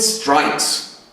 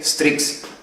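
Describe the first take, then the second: First: The vowel sounds like the one in 'strike'. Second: The vowel is a short 'i' sound. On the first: The speaker calls it right. "it sounds like strike" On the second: The speaker calls it wrong. "if I pronounce it as a Swiss German guy"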